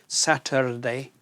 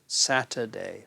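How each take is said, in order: First: The R is sounded as a retroflex R. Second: The R is not sounded at all. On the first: The speaker calls it wrong. "the retroflexive R" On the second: The speaker calls it right. "We don't really sound the R"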